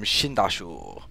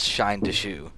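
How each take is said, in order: First: The name is run together as one word. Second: The name is said as three separate words. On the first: The speaker calls it wrong. "I thought it was like a, a Chinese thing" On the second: The speaker calls it right. "but apparently it's Shine the shoe"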